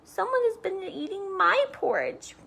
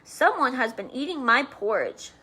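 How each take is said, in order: First: It is said in a tiny, high bear voice. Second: It is said in a big, deep bear voice.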